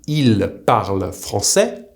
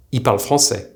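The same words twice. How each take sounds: First: Plural 'il parle français' with the L fully sounded; careful written form. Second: 'il parle français' with il reduced to 'i'; spoken short form. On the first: Teacher showing how they speak French is written, il parle français articulated. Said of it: "will be written". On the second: Teacher showing learners the spoken il parle français, L dropped. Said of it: "it will be pronounced". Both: Shown as a demonstration.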